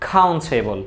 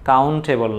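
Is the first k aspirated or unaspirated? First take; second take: aspirated; unaspirated. First: The first k has a strong puff of air. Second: The first k is plain, without a puff of air. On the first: The speaker calls it right. "ক প্রত্যেকটাকে তুমি খ বলে দিবা" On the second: The speaker calls it wrong. "কাউন্টেবল না"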